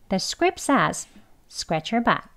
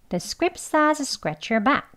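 First: Slow, careful, with each word said separately. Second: Faster, with the words linked together. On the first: "천천히 한번 먼저 하겠습니다" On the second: "대화 발음 그러면 두 번 발음해 볼게요"

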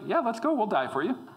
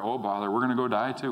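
First: It is said eagerly and boldly. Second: It is said gloomily, like Eeyore.

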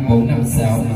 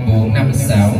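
Both takes have the same delivery.

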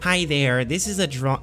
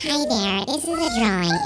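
First: It is said in his ordinary voice. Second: It is said in a mocking put-on voice.

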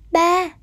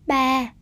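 First: The syllable has a level, even tone. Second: The syllable has a low, falling tone. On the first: "tiếng ba" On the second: "đây là dấu huyền"

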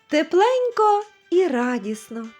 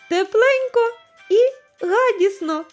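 First: The r sound is pronounced normally. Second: The r sound is dropped or replaced.

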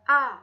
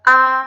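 First: It is short and light. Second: The pitch stays level throughout. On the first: "เสียงเบาค่ะ" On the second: "เสียงที่1 เทียบเท่ากับเสียงวรรณยุกต์ในภาษาไทยคือเสียงสามัญ"

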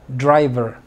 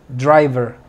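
Both takes have the same delivery.

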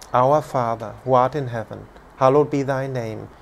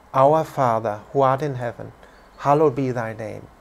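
The two takes are said the same way.

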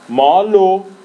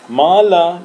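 First: The word ends in an 'o' sound. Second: The word ends in an 'a' sound. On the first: It means small. "مالو یعنی کوچیک" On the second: It means a little. "مالا یعنی یکم"

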